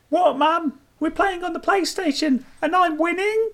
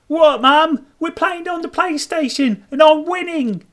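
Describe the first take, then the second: First: The voice rises at the end. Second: The voice falls at the end.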